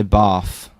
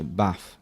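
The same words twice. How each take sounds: First: "bath" with a long ah, like "bahth"; long-vowel bath. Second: "bath" with a short flat a as in cat; short-vowel bath. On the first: Comparing accents for visitors, "bath" with southern long ah. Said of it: "some people say". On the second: Yorkshire lad showing his own way, "bath" with short a. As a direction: keep the a in "bath" short, northern style. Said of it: "but I say, like, I say". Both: Shown as a demonstration.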